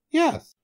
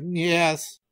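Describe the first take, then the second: First: Very high squeaked reply; tiny high-pitched monkey. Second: Higher-pitched animal reply; small, raised goat voice. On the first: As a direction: pipe it up high. Monkey answers the tiger. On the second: Goat answers the tiger. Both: Acted.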